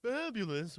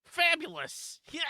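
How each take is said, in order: First: Lightly voiced cartoon villain; a hint of an affected villain voice; Pegasus. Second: High-pitched Russie-style exclamation; Russie impression. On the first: Player falls back on a known villain, lightly done Pegasus. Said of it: "I'm just gonna do Pegasus". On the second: Player does a Russie as requested, high exclaimed impression. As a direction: burst out high, doing a Russie. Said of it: "I did a Russie".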